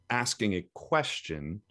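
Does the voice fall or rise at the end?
fall. The pitch falls at the end. "are you rounding down at the end of the sentence"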